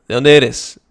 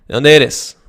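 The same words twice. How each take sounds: Both takes have the same delivery.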